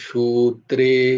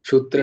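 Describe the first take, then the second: First: The first vowel is said long. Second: The first vowel is said short. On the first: The speaker calls it right. "শুয়ে দীর্ঘ আছে" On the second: The speaker calls it wrong. "সূত্রে না"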